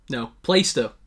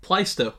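First: "Plaistow" as "Play-stuh", lower and firmer; corrected guess. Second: "Plaistow" as "Ply-stuh"; first guess. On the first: Quiz player correcting his own guess, a bit lower. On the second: Quiz player trying a first guess at a place name. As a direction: go with "Plaistow" rhyming with sky, short ending. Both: Real, not acted.

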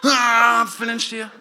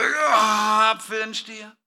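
First: A louder groan of effort, then breaking into a laugh; louder straining branch, laughing. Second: A branch pushing hard to make an apple; mock straining branch. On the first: Pretend. Preacher repeats the straining branch, louder and laughing. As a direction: push harder, laughing at it yourself. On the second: Preacher voicing a branch straining to grow an apple. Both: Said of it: "Der Zweig war so".

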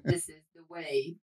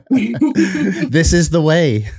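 First: Muffled metallic helmet voice; inside a metal tank. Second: Mandalorian catchphrase. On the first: Real, not acted. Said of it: "I sound like a tin can". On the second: Pretend.

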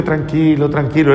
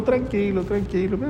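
First: Said in the usual way. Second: High, much softer calming tranquilo; whispered-soft reassurance, pitched up; soothing hush. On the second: Retold or imitated. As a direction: gently hush a man in pain. Saint calms the angry patient.

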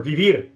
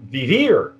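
First: "Vivir" said the Spanish way, stress on the last syllable; "Vivir" with a Spanish tapped r; Spanish pronunciation. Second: Said in the usual way. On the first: Shown as a demonstration. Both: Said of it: "with my Spanish accent there".

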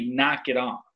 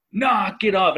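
First: Said in the usual way. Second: High mock dad yell; pitched-up parental holler; retold parental yell. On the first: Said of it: "And I don't say". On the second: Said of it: "and I yelled it".

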